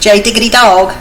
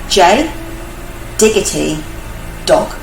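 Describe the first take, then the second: First: It is said in the speaker's usual accent. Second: It is said in a put-on English accent.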